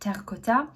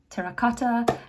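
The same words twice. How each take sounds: First: The word is pronounced the French way. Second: The word is pronounced the English way.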